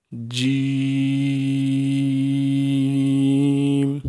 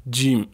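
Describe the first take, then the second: First: جیم with the 'ee' held very long on one note; madd elongation. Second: Said in the usual way. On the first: Shown as a demonstration. Teacher leading pupils to read along, long-drawn جیم. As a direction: stretch جیم steadily, closing on 'm'. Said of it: "مد کر کے پڑھنا ہے". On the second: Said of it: "اس میں ہم نے مد کر کے پڑھنا ہے".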